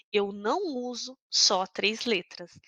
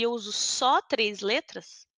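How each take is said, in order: First: "não" bem marcado e lento; ênfase no não. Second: Said in the usual way. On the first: Shown as a demonstration. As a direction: aponte o "não" com força, devagar. (professora corrigindo a turma, "não" enfático)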